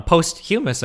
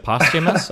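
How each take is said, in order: First: Posthumous said as post-hue-mous, with a long o and a y sound before u; mispronounced word. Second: Posthumous said as POS-tuh-mus, short o, no y sound; corrected pronunciation. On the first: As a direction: say posthumous as POST-hyoo-mus. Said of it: "You mispronounced". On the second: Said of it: "Posthumous, you mean?". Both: Real, not acted.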